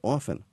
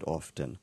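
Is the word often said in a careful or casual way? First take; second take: casual; careful. First: The word is said in a casual, relaxed way. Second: The word is said in a careful, formal way. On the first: The speaker is talking informally. "he sat on the edge of the desk, put his papers down, and every time someone asked him something, he said" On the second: The speaker is reading formally. "the speaker was reading the words, and every time he came to the O-F-T-E-N, he said often"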